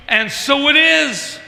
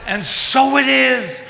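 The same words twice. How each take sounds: First: High, loud, slow proclamation; slow soaring declaration; preached affirmation. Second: High, loud, slow proclamation again held; preached affirmation. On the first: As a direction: ring it out like a congregation amen. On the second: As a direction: call it out full and slow. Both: Real, not acted.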